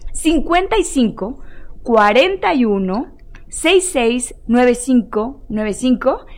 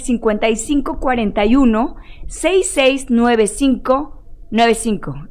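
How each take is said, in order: First: The number is said slowly. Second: The number is said fast.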